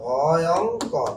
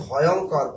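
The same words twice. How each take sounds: First: "ভয়ঙ্কর" very slow, in separate parts ভ, য়ং, কর; syllable by syllable. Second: Said in the usual way. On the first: Shown as a demonstration. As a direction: stretch each syllable of "ভয়ঙ্কর" to show the join. Teacher breaks word into parts. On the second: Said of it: "যেমন দেখেন".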